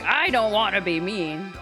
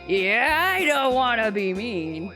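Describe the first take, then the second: First: It is said in a plain, normal voice. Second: It is said in a put-on imitating voice.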